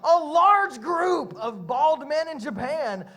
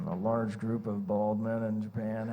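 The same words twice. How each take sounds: First: It is read in the speaker's own normal voice. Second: It is read in a put-on imitation voice. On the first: "I'm really tempted to read these in my Jared imitation voice, but I won't" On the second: "Let me read it again like Jared"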